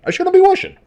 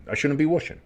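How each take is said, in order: First: Much higher, louder comic squeak; squeaky mock whoosh. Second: Said in the usual way. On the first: Shown as a demonstration. Joking about his own sound effects, high squeaky mock voice. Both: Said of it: "I don't know why I do the whooshing".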